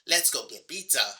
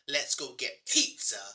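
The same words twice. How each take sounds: First: The P in pizza has no puff of air. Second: The P in pizza has a strong puff of air. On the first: "you might notice the lack of a burst of air" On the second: "notice my emphasis on the P consonant sound at the beginning of the word pizza"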